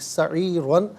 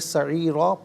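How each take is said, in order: First: The word ends with an n sound. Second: The word ends with a plain long vowel. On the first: The reading continues without stopping. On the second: The reading stops at this word.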